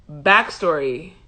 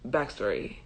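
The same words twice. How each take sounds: First: BACKSTORY drawn out slowly, rising at the end; drawn-out announcement. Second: BACKSTORY dropped low and soft, falling; quiet low repeat. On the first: Storyteller announces background to viewers, BACKSTORY slow and rising. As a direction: stretch out BACKSTORY with an upward lift. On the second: Storyteller repeats the heading to herself, BACKSTORY low and soft. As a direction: say BACKSTORY softly under the voice. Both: Real, not acted.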